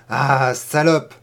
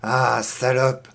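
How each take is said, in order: First: Slow, louder repeat with a rise on salope; louder insult. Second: Low, slow growled insult; muttered insult. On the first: Boy pinning the girl down, repeating it louder. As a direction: push the repeated insult harder. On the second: Boy pinning the girl down, repeating the insult. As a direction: drag the insult out, low and menacing. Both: Acted. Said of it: "ne cessait-il de répéter".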